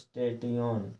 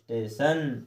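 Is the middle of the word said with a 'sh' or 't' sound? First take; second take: t; sh. First: The ending is said with a 't' sound. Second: The ending is said with a 'sh' sound. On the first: The speaker calls it wrong. "ना कि स्टेटियोन" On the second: The speaker calls it right. "नहीं, क्या पढ़ना? स्टेशन"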